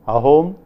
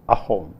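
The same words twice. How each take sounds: First: The word starts smoothly on the vowel. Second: The word starts with a glottal catch. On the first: "Instead of ahom" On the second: "you will say ahom"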